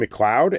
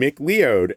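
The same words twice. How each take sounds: First: The name ends sounding like 'cloud'. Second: The name does not end like 'cloud'. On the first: The speaker calls it right. "you mean McLeod? ... that word makes a lot more sense" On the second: The speaker calls it wrong. "I'm on Pecos and McLeod. ... for years"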